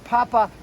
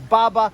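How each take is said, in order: First: The word begins with a P sound. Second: The word begins with a B sound. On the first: "instead of saying Papa" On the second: "it was Baba"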